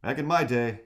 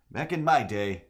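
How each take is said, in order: First: Put-on a touch higher crotchety old-timer; old man voice. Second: Put-on a touch higher crotchety old-timer, same again; old man voice. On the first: Streamer retries the old man voice, slightly higher. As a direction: grumble it like a grandpa. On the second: Streamer repeats the old man line, slightly raised. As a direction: grumble it like a grandpa once more. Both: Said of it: "trying to do that old man voice".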